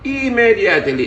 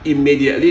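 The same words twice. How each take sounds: First: The word is pronounced in a garbled, mangled way. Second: The word is pronounced in standard English. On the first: The speaker calls it wrong. "dibaca immediately" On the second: The speaker calls it right. "kata immediately artinya segera"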